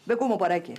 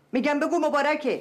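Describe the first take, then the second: First: Said in the usual way. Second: Insisting her brother say congratulations; insistent. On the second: Acted. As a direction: repeat it forcefully.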